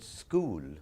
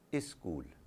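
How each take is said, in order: First: The word begins directly with the s sound. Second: A short vowel is added before the s sound. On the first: "when they would use the word school, they would not be able to speak it" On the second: "So they say"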